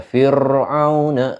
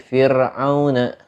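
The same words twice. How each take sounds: First: Fir'auna with heavy, drawn-out r; thick ro. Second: Fir'auna with a plain, light r; thin ro. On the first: Teacher showing wrong reading, thick ro in fir'auna. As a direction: roll the r in fir'auna thick and long. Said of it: "enggak dibaca fir'auna". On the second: Teacher correcting to normal reading, thin ro in fir'auna. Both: Shown as a demonstration.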